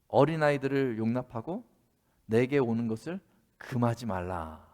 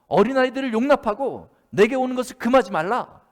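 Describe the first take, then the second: First: It is said in a calm, gentle tone. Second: It is said in an angry, scolding tone. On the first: The speaker calls it wrong. "지금 제가 말한 것처럼 이렇게 온화하게" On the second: The speaker calls it right. "화를 내면서요, 이렇게 말씀하신 거예요"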